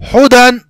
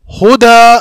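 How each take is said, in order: First: The word ends with an n sound. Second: The word ends with a long a vowel. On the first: This is the full form inside the sentence. "यहां पर क्या था असल में" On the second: This is the form used when stopping on the word. "अगर यहां पर हम आ, वक्फ करना चाहे"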